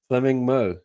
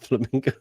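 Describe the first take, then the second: First: It is said as flaming, then a separate mo. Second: It is said as flamingo, ending in go. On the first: The speaker calls it right. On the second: The speaker calls it wrong. "Not Flamingo"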